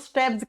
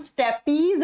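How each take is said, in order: First: The word ends with a short 'ps' sound. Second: The word ends with a long 'peez' sound. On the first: This is how it is spoken. "जब pronounce करते हैं तो इसको स्टेप्स कहा जाता है" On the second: This is how it is written. "Hindi में हम स्टेपीज लिखते हैं"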